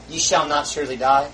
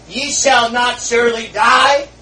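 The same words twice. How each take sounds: First: Said in the usual way. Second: Louder, slow tempting drawl with a rising end; Satan's lie. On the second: Acted. Satan deceiving Eve, a hint of slow taunting. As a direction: coax it like a tempter. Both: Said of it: "he said, "Eve".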